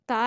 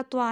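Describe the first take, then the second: First: ता with a plain, light t; ता as the light letter, not त्वा. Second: त्वा with a heavy, rounded t; त्वा as the heavy letter, not ता; heavy twa. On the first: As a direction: say ता thin, without any w colour. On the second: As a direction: say त्वा full, with a w colour. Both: Shown as a demonstration. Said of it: "इन दोनों की आवाज़ में फ़र्क है".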